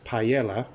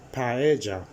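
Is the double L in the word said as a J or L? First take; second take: L; J. First: The double L is said as an L. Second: The double L is said as a J. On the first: The speaker calls it wrong. "don't call it paella" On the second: The speaker calls it right. "you pronounce them as a J"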